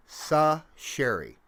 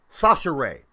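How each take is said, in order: First: Sasheri slowly split as "sah... SHERRY"; careful syllable-by-syllable. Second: Sasheri run together as "SAH-shuh-ray", loud first syllable; corrected pronunciation. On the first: Host working out a player's name aloud, slow and careful. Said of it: "is how it's pronounced". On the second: Host landing on the right name, emphatic SAH-shuh-ray. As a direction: say Sasheri ending in "ray", firmly. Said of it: "That's it". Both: Shown as a demonstration.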